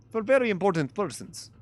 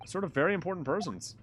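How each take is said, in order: First: Put-on "very" punched louder and higher in a light Russian accent; proud Russian guard hitting "very"; stress on very. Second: Said in the usual way. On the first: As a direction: lean hard on "very". Stroganoff stressing very.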